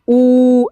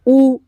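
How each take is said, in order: First: The vowel is long and drawn out. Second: The vowel is short and clipped. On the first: "बड़ा ऊ का उच्चारण बड़ा होता है" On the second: "छोटा ऊ का उच्चारण छोटा होता है"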